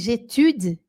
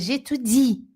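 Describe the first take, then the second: First: The final i vowel is left out. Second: The final i vowel is said strongly. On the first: The speaker calls it wrong. "Se você disser assim, j'étude, porque eu já ouvi brasileiro falando assim" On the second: The speaker calls it right. "e não é, é j'étudie"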